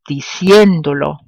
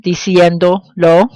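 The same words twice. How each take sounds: First: Diciéndolo joined as one word, weight on CIÉN; diciéndolo as one word, stressed di-CIÉN-do-lo; original verb stress. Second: Diciéndolo in two pieces, diciendo, then lo; slow diciéndolo with a gap before lo, rising; pronoun held apart. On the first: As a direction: run diciéndolo together, punching CIÉN. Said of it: "maintain the original stress of the verb". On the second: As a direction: separate the final lo in diciéndolo. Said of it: "when pronouns are added to a verb form". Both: Shown as a demonstration.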